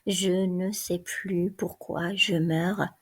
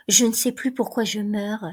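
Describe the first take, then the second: First: Slow, plodding repeat of each word; slow dictation. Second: Said in the usual way. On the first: A narrator's reading. The guard copying Antigone's words into his notebook, slow. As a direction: drag it out while writing it down. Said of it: "Le garde écrit, suçant sa mine".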